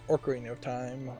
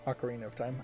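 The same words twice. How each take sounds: First: Ocarina begins with an added R sound. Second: Ocarina begins with a plain vowel sound. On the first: The speaker calls it wrong. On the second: The speaker calls it right.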